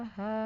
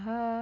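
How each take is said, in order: First: The ha sounds muffled, mouth barely opened. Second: The ha sounds muffled, mouth barely opened.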